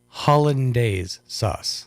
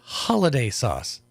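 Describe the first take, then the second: First: The first word is said as full hollandaise. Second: The first word is said like holiday. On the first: The speaker calls it right. "Say it with me now" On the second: The speaker calls it wrong. "Not holiday sauce"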